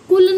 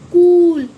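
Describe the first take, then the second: First: The vowel sound is short. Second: The vowel sound is long. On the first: The speaker calls it wrong. "कुल नहीं" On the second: The speaker calls it right. "Long voice आ रही है"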